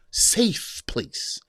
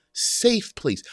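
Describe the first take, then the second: First: Whispered. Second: Said in the usual way. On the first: Shown as a demonstration. Repeats phrase, first time whispered.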